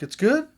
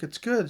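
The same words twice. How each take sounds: First: High, loud, rising "It's good?"; incredulous question. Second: Raised, steady "It's good."; mock reassurance. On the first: Retold or imitated. Sister hearing the news is good, high and disbelieving. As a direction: squeak it out in disbelief. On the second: Couple reassuring the sister, high and firm. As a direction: answer her gently but firmly.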